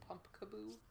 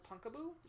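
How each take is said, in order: First: Pumpkaboo said with the m, pump-ka-boo. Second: Punkaboo said without the m, punk-a-boo. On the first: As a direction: say Pumpkaboo with a clear m. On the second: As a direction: say Punkaboo with no m sound. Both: Shown as a demonstration. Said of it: "actually spelled Pumpkaboo".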